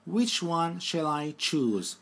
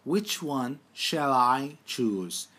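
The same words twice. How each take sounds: First: Slow, deliberate question; careful teacher pace; slow dictation. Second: Very slow repeat of the question; drawn-out teacher repeat; slow dictation. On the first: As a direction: read it slowly for learners. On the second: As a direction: say it even slower for the class. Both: Shown as a demonstration. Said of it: "Bakın birinci hali".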